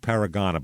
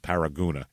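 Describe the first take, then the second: First: The third syllable has an 'ah' vowel. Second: The third syllable has an 'oo' vowel. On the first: This is how the spelling looks. "it looks like Paragana" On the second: This is how pronunciation guides give it. "every pronunciation guide says Paraguna"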